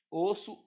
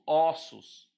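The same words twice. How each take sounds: First: Closed o in "Osso"; "Osso" rising, first vowel closed. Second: "ossos" loud and falling, first vowel opened up. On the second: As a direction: open o in "ossos". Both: Shown as a demonstration. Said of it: "essa mudança de timbre".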